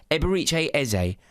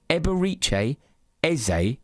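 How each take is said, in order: First: Said in the usual way. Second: Eberechi Eze spoken slowly, each syllable set apart as eh-beh-REE-chay EH-zay; careful name demo. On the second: Shown as a demonstration. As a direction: spell out Eberechi Eze clearly, one word at a time. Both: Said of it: "How am I saying these words?".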